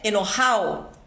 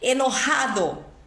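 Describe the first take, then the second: First: The d between the final vowels is dropped. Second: The d between the final vowels is pronounced.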